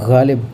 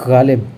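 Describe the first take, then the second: The two takes are said the same way.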